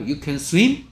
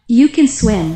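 First: The voice rises at the end. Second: The voice falls at the end. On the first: It asks a question. The speaker calls it wrong. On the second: It states a fact. The speaker calls it right.

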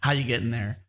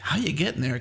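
First: It is asked in a negative, accusing tone. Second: It is asked in a friendly, curious tone.

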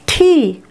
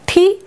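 First: The vowel is longer and louder. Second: The vowel is short and soft. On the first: "एकटू जोरे एकटू बेशी समय निये" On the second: "रस्सिकार थाकले उच्चारणेर समयटा हय अल्प समय"

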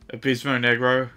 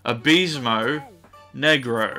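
First: It is said at normal, quick speed. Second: It is said slowly and deliberately.

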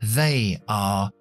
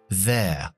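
First: It is said as two full words. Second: It is said as one contracted syllable.

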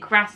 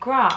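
First: It is said in the speakers' own common accent. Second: It is said in a posher accent. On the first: This is how the speakers themselves say it. "we say grass" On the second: This is how the speakers do not say it. "not grass"

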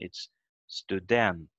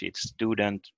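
First: The stress is on the second syllable. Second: The stress is on the first syllable. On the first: "But in Swedish and Norwegian, it's student" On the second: "In English, it's student with stress on the first letter"

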